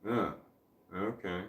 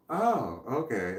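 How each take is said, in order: First: Low, soft "oh... okay" with a gap; hesitate, then drop to a quiet okay; underwhelmed reaction. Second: Understanding reaction. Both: Shown as a demonstration. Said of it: "as opposed to".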